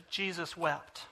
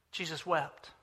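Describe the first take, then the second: First: Hushed reading. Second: Hushed repeat. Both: Real, not acted.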